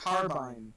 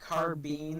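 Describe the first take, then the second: First: The last syllable has an 'eye' vowel. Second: The last syllable has an 'ee' vowel. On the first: This is how English people say it. The speaker calls it right. "It's clearly carbine" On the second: This is how Americans say it. The speaker calls it wrong. "They pronounce carbine like carbine, ... where the fuck is the e coming from?"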